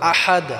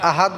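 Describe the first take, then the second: First: The 'h' is pressed deep in the throat. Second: The 'h' is a light, ordinary breath. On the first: The speaker calls it right. "এখানে হাটাকে আমরা গলায় চাপ দিয়ে উচ্চারণ করব" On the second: The speaker calls it wrong. "আহাদ বললে হবে না"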